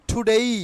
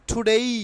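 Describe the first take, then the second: Both takes have the same delivery.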